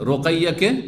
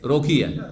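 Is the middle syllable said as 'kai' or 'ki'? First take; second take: kai; ki. First: The middle syllable is said as 'kai'. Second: The middle syllable is said as 'ki'. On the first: The speaker calls it right. "মেয়ের নাম" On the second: The speaker calls it wrong. "বিকৃত করে দিয়েছে"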